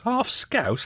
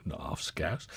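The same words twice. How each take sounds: First: Half Scouse? jumps much higher in mock disbelief; mock outrage. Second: Said in the usual way. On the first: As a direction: squeal Half Scouse? in pretend shock. Host mock-outraged at texter's question.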